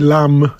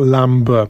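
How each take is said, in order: First: The word ends without a b sound. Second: The word ends with a b sound. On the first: The speaker calls it right. "So we say lamb" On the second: The speaker calls it wrong. "not lamb"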